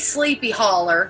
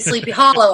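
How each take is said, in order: First: The second word ends with an 'er' sound. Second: The second word ends with an 'oh' sound. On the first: The speaker calls it wrong. "you can't say Sleepy Holler" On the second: The speaker calls it right. "You have to say Sleepy Hollow on that one"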